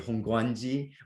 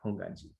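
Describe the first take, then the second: First: A w sound follows the g. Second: No w sound follows the g. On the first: The speaker calls it wrong. "people kind of forcefully say Hongguanji" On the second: The speaker calls it right. "The W is silent"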